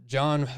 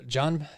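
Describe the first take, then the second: Both takes have the same delivery.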